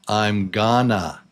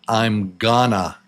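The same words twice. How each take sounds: The two takes are said the same way.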